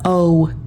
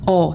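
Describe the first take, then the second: First: The vowel glides into another sound. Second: The vowel stays steady without changing. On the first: The speaker calls it wrong. "not o" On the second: The speaker calls it right. "it's a solid sound. There is no change in the sound"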